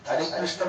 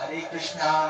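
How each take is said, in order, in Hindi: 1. नाम संयुक्त व्यंजन 'shn' पर खत्म होता है। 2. नाम के अंत में एक जुड़ा हुआ दीर्घ 'aa' स्वर है। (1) "हरे कृष्ण बोलोगे तो कान्हा जी आएंगे" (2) "कृष्णा तो कृष्णा नहीं"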